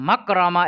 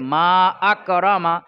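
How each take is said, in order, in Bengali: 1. দুটি শব্দ প্রথম স্বরধ্বনি ছাড়া মিলিয়ে পড়া হয়। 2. দ্বিতীয় শব্দের প্রথম স্বরধ্বনি উচ্চারণ করা হয়। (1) "এরকমটা হবে না।" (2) "কি পড়তে হবে?"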